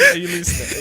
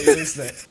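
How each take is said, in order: First: Laughing. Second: Said in the usual way. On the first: Real, not acted. Laughing at co-host.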